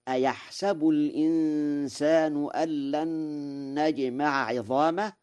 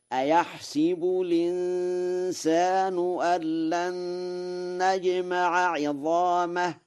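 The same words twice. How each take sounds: First: Recited "أيحسب" as ayahsabu; fatha on sin. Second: High chant, "أيحسب" as ayahsibu; chanted, intone "أيحسب" with i on س, ayahsibu, pitch raised; chanted kasra reading. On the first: Teacher quotes the verse, reciting "أيحسب" as ayahsabu with fatha. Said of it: "وقراءة الفتح لغة تميم". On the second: Teacher models Warsh's recitation, high chant with "أيحسب" as ayahsibu. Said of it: "فيقرأ هكذا". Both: Shown as a demonstration.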